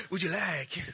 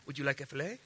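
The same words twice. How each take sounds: First: Lightly imitated waiter, mild; a faint mock server's offer; Brazilian waiter. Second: Lightly voiced soft waiter offer; a hint of a hushed Brazilian server. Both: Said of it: "somehow Brazilian guys are talking like".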